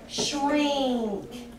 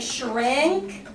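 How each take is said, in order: First: The vowel sounds nasal, close to an ee. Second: The vowel is a plain short i sound. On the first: "it will sound like shrink" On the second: "instead of saying shrink"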